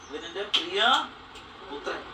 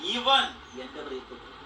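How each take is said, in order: First: The stress falls on 'son'. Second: The stress falls on the first word.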